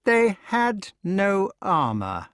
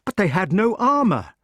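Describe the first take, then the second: First: Slow, heavy stress on They; frightful emphasis. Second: High, loud shocked protest; king protesting in shock. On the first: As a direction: lean hard on They. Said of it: "with frightful emphasis". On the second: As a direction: protest in disbelief. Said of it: "protested the king". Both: Acted.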